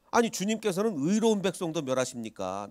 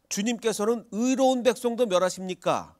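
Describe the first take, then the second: First: Said in the usual way. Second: Raised indignant quote. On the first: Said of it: "아비멜렉이 이렇게 대답합니다". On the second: Retold or imitated. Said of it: "아비멜렉이 뭐라고 얘기하죠".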